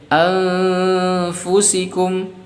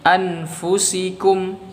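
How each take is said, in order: First: The n is hidden into a nasal sound. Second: The n is pronounced clearly and fully. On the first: The speaker calls it right. "harusnya dibaca ikhfa nun sukunnya" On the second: The speaker calls it wrong. "tapi kita baca dengan bacaan idhar"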